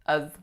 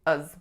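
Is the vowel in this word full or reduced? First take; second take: reduced; reduced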